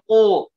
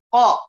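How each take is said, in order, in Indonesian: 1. Vokalnya terdengar gelap dan membulat, seperti o. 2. Vokalnya terdengar terbuka dan jernih, seperti a. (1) "qa-nya diberikan sifat idbaq ... Enggak boleh bacanya ko"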